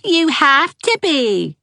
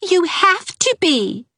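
First: Put-on high, slow teasing child echo; high sing-song mimicry; mocking echo. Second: Stubborn. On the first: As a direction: parrot her back. Said Geraldine. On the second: Acted. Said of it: "said Ivy stubbornly".

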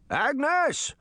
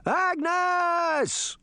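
First: High-pitched holler for Agnes; old man's shout. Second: High, long-drawn wail; alarmed cry. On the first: Senior citizen in his yard, shouting to Agnes. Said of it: "heard the man shout". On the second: Old man knocked down by rabbits, crying out for Agnes. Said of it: "he cried". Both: A narrator's reading.

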